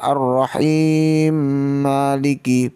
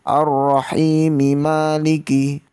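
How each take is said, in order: First: 'Rahim' ends on 'm' with no final vowel. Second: A final 'i' vowel is said after 'Rahim'. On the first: The speaker calls it wrong. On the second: The speaker calls it right. "harokat dari masing-masing ayat harus dibaca"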